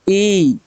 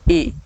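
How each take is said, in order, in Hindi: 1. इस स्वर को ज़्यादा देर तक खींचा जाता है। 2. इस स्वर को बस थोड़ी देर तक खींचा जाता है। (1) "इसमें ज्यादा समय लग रहा है" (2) "कम समय लग रहा है ना।"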